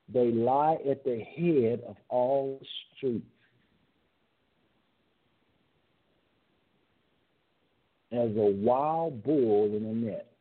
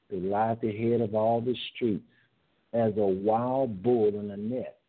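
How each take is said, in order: First: It is read at a slower pace. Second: It is read at a faster pace.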